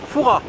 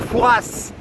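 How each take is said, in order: First: The final S sound is silent. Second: The final S sound is pronounced. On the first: This is how locals say the name. The speaker calls it right. "Il y a un S à la fin mais il se prononce pas" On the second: This is how outsiders say the name. The speaker calls it wrong. "contrairement à ce que disent les Parisiens, et c'est pas Fouras"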